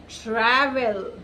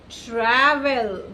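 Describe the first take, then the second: No difference in how they are said.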